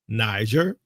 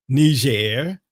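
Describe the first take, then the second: First: Niger said as "NYE-zher"; anglicized pronunciation. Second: Niger said as "nee-ZHAIR"; French-style pronunciation. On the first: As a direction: say Niger with a long "eye" in the first syllable. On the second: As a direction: say Niger with "nee" first, then a stressed "zhair". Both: Shown as a demonstration. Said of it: "however you wanna pronounce it".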